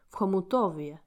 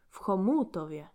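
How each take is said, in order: First: The stress is on the third syllable. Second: The stress is on the second syllable.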